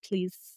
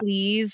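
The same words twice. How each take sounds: First: The word ends with an s sound. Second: The word ends with a z sound.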